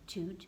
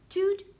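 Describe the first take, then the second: First: It is said softly. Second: It is said medium loud.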